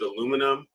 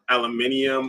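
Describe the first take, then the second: First: It is said the American way, four syllables. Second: It is said the British way, five syllables. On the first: "in the states we pronounce it aluminum" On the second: "across the Atlantic, aluminium"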